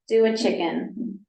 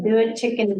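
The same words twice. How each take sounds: First: The phrase is said at a normal pace. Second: The phrase is said quickly, words running together.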